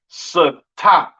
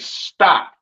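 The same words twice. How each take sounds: First: The s and t are split apart. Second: The s and t blend together. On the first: The speaker calls it wrong. "You wouldn't say" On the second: The speaker calls it right. "you would say"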